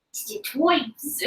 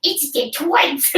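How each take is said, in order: First: Slow cartoon New York accent; drawled Pokemon New York voice. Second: Slow cartoon villain voice; drawn-out anime character; Pokemon voice. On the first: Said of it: "does he have, like, a New York accent?". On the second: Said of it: "Why are you doing Pokemon voices?".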